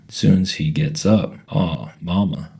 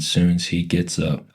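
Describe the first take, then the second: First: Slow, Southern-voiced dismay; upset, disappointed, Southern. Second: Said in the usual way. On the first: A narrator's reading. Daughter questions her mother about Mister Robert, upset and disappointed. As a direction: draw it out in mild, disappointed protest. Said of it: "sounded real upset and disappointed and Southern".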